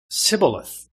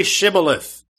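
First: Sibboleth with a plain S at the start; mispronunciation. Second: Shibboleth with a clear SH at the start; correct pronunciation. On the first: Ephraimite failing the test, Sibboleth with S for SH. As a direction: say Sibboleth, S in place of SH. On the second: Men of Gilead testing a fugitive, Shibboleth with SH. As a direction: say Shibboleth with a hushing first sound. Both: Shown as a demonstration. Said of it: "he could not pronounce it right".

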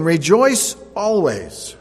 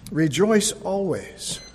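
First: "Rejoice always." called out loud and very slow; proclaimed. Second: Said in the usual way. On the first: Shown as a demonstration. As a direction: ring out "Rejoice always." slowly, word by word, like a proclamation.

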